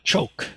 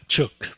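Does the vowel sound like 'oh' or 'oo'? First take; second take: oh; oo. First: The vowel sounds like 'oh'. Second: The vowel sounds like 'oo'. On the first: The speaker calls it right. "is pronounced uh, choke" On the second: The speaker calls it wrong. "not chook"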